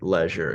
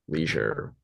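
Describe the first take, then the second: First: It is said with a non-American pronunciation. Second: It is said with an American pronunciation.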